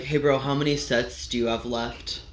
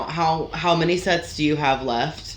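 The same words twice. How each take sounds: First: Lower, softer gym-bro question; mildly mock a bro asking for the equipment; imitating gym bro. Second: Politely voiced question, rising at the end; polite asking. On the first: Gym-goer hovering for someone's bench, mock bro voice. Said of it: "One of my least favorite is". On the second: Gym-goer politely asking somebody about their sets, mild courtesy. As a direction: ask courteously, in an everyday voice. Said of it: "polite when you're asking somebody".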